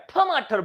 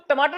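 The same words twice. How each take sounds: First: The first consonant is an aspirated th sound. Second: The first consonant is a plain unaspirated t. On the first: "वो ठ बोलता है" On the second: "तो टमाटर नहीं बोल पाएगा"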